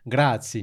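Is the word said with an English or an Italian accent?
Italian. It is said with a native-like Italian pronunciation. The speaker calls it right. "you need to say like"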